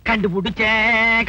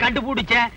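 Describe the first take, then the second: First: Slow, stretched கண்டுபிடிச்சேன் like a grand reveal; drawn-out discovery. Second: Said in the usual way. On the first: Acted. Policeman announcing he's worked out her age, slow and stretched. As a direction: draw out கண்டுபிடிச்சேன் syllable by syllable.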